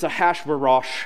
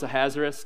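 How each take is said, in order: First: The name is said in a technical, traditional form. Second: The name is said in a simplified, anglicized form. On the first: The speaker calls it right. "Technically, it's Ahasuerosh" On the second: The speaker calls it wrong. "So I just made it super simple"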